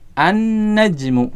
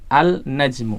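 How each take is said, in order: First: The L merges into a doubled N sound. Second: A clear L sound comes before the N. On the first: The speaker calls it right. "lamnya tidak dibaca" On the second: The speaker calls it wrong. "salah kalau kita membacanya dengan al-najmu"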